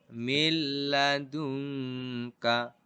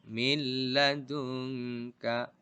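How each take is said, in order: No difference in how they are said.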